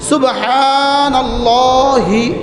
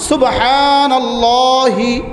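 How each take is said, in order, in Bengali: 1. শেষে স্বরধ্বনি 'i' আছে। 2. শেষে স্বরধ্বনি 'i' আছে।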